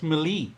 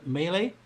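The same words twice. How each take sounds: First: Melee said as "meh-LEE"; mistaken pronunciation. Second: Melee said as "MAY-lay", questioning; corrected pronunciation. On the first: Real, not acted. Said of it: "oh, it's pronounced". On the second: Shown as a demonstration. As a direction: try out melee as "may-lay?" with a rising end. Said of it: "it's pronounced".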